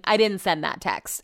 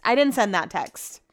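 First: "I" hit hardest, "didn't send that text" softer and falling; stress on I. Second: "didn't" hit hardest, falling to "text"; stress on didn't. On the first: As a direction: lean on "I", let the rest fall away. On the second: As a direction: punch "didn't" as a firm denial. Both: Shown as a demonstration.

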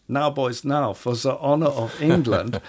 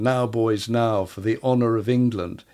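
First: Put-on the king's battle cry in a German accent; rally the troops with a German accent. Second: Said in the usual way. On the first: Historian imitating George the Second rallying troops, German accent. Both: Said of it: "in a German voice".

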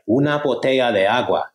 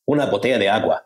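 First: Learner repeating back. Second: Said in the usual way. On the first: Retold or imitated. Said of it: "And you're like". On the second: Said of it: "And they're like".

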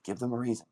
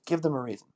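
First: Said in the usual way. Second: "Give them a reason" pushed higher and louder; emphatic repeat. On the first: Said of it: "repeated take". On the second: Shown as a demonstration. Coach urging the father, emphatic "Give them a reason". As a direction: drive home "Give them a reason" with force. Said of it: "repeated louder".

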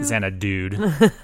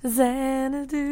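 First: Xanadude said slowly, ending in dude; jokey mispronunciation. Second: Xanadu said slowly, correcting Xanadude; slow correction of the title Xanadu; corrected word. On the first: Host repeating his joke word back, slow and louder. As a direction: insist on the silly Xanadude. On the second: Co-host correcting his mispronounced title, slow and pointed. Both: Real, not acted.

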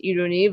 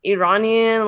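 First: Iruni said the Persian way, ee-roo-NEE; Persian pronunciation. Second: Iranian said the English way, ih-RAH-nee-an; English pronunciation. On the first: Contrasting the Persian name with English, Iruni in Persian sounds. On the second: Contrasting the English name with Persian, Iranian in English. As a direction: Iranian in plain American English. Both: Shown as a demonstration. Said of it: "I think in Persian it sounds nice".

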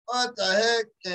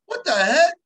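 First: Drawn-out, slow "What the heck?", stunned. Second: "What the heck?" higher and louder, amazed. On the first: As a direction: let "What the heck?" hang, slowly. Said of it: "And I was all like". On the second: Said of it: "And I'm like". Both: Retold or imitated.

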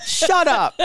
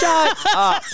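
First: High, falling shut up, fed up; exasperated shut up. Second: High, drawn-out shut up, fed up; exasperated shout. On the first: Co-host mocking a cheesy Instagram post, dismissive high shut up. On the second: Co-host mocking a cheesy Instagram post, exasperated high shout. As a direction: yell it up high in disgust. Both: Real, not acted.

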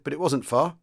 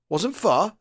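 First: Said in the usual way. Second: Higher-pitched, puzzled question; puzzled echo. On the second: A narrator's reading. Sergeant major echoing the young commander's answer, puzzled. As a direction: query it back, baffled. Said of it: "The sergeant major seemed puzzled".

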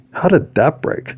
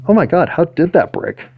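First: Puzzled surprise. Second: High, baffled disbelief; can't believe it broke; astonished. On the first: Finds something broken. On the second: Repeats, more astonished. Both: Real, not acted.

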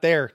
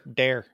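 First: Said in the usual way. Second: "there" with a hard d, as "dere"; Wisconsin "there". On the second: Shown as a demonstration. Host correcting guest, "there" pronounced "dere" in Wisconsin accent. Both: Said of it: "Not, not there, there".

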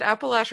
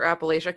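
First: "Appalachia" with a short a in the third syllable; first pronunciation. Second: "Appalachia" with a long a in the third syllable; second pronunciation. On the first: Host asking which pronunciation is right, first pronunciation of "Appalachia". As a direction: say "Appalachia" as appa-LATCH-a or appa-LASH-a. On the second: Host asking which pronunciation is right, second pronunciation of "Appalachia". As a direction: say "Appalachia" as appa-LAY-sha. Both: Shown as a demonstration. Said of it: "Is it Appalachia or Appalachia?".

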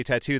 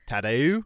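First: Said in the usual way. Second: "tattoo" with a bent Australian final vowel; imitated Australian pronunciation; Australian accent. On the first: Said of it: "whenever they say tattoo, they say". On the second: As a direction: stretch the end of "tattoo", mock Australian. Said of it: "they say tattoo".

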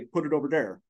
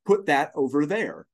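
First: Imitating a Southern accent; mother's Southern accent. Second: Said in the usual way. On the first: Son imitating his mother answering her teacher, Southern accent. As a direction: say it as a Southern child would. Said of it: "everyone in their Minnesotan accents ... would laugh at my mother". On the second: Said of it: "asking her to say certain phrases like".

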